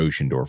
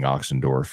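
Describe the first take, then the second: First: The name begins with an 'ocean' sound. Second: The name begins with an 'ox' sound. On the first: The speaker calls it right. "Oceandorf is how you say it" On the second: The speaker calls it wrong. "I was saying Oxendorf yesterday"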